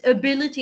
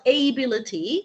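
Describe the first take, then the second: First: The first vowel is short, unlike 'able'. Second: The first vowel sounds like in 'able'. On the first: The speaker calls it right. "it's ability" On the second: The speaker calls it wrong. "it's not ability"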